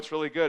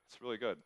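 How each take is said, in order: First: It sounds hyped up and over-excited. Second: It sounds calm, sincere and relaxed. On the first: The pitch comes across as too pushy. The speaker calls it wrong. "if you just pitch it like I did, like old Nick" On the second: The pitch comes across as genuine. The speaker calls it right. "just sincerely, but be excited, but still be kind of cool about"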